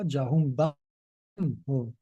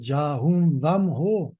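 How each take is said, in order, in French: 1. La syllabe du milieu commence par un son B. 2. La syllabe du milieu commence par un son V. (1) "c'est pas Jahum Bam Ho" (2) "le V avec un, une résonance, vam"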